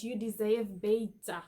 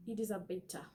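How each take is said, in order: First: "you deserve better" in a light South African accent, "deserve" as dizav, "better" as beta; a lightly voiced South African accent. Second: Said in the usual way. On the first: Shown as a demonstration. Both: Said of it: "In a South African accent".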